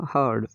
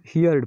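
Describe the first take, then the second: First: हर्ड in one syllable, no ee glide; correct pronunciation. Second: हियर्ड with an ee-ya glide; common mispronunciation. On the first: Teacher gives the second-form reading, correct pronunciation. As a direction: say हर्ड with a plain open vowel after h. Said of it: "यहाँ इसका उच्चारण होगा". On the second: Teacher shows how some people read it, mispronunciation. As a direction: say हियर्ड as hee-yard. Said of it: "कुछ लोग इसको हियर". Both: Shown as a demonstration.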